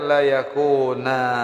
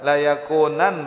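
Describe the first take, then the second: First: The word ends with a long a vowel. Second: The word ends with an n sound.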